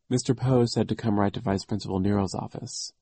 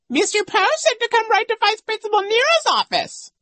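First: It is said quietly in a normal voice. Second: It is said in a high, shrieky voice.

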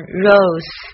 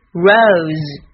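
First: The r is the Chinese initial r sound. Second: The r is an English r sound. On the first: The speaker calls it wrong. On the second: The speaker calls it right.

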